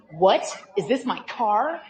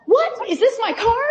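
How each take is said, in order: First: Stunned, slower dismay at a wrecked car; mild shocked groan. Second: Put-on high, delighted squeal of a teen girl; excited teen surprise; thrilled daughter. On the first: Retold or imitated. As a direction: let it sink in, disbelieving. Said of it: "his car has been vandalized". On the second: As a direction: gasp with joy at a new car. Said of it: "the daughter comes out".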